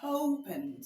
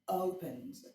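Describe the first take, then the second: First: The word begins with a hard breathy h sound. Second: The word begins with a soft, open vowel. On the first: The speaker calls it wrong. "instead of me saying opens, no" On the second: The speaker calls it right. "I am not making it fricative. I'm not making it hard"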